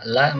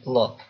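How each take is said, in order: First: The L is light, with a plain a vowel. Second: The L is heavy, with an o-like vowel. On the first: "yang asalnya la" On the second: "menjadi lo"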